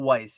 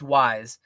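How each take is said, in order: First: The word ends with a hissing S sound. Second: The word ends with a buzzing Z sound. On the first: The speaker calls it wrong. "It's not like W E I S S like the card game. It's not Weiss" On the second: The speaker calls it right. "it's definitely a Z sound like zebra"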